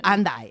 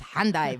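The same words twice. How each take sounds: First: The word begins directly with the vowel sound. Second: The word begins with an audible H sound. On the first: The speaker calls it right. "but it's really Hendaye" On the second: The speaker calls it wrong. "It's hard for me to do it without the H, so it's Hendaye"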